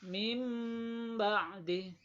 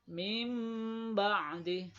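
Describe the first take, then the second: The two takes are said the same way.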